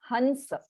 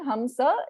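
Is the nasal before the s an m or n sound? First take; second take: n sound; m sound. First: The nasal before the s is an n sound. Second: The nasal before the s is an m sound. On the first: This is the Hindi pronunciation. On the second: This is the Sanskrit pronunciation.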